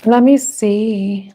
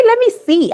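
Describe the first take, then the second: First: Said in the usual way. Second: High-pitched self-imitation; mimicking own catchphrase. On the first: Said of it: "why always say, "Let me see"?". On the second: Reader teasing her habit of saying it, playfully high-pitched. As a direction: quote yourself in a much higher voice. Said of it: "I like the way I say it".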